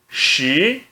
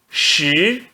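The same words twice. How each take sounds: First: The pitch rises from mid to high. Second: The pitch rises from mid to high.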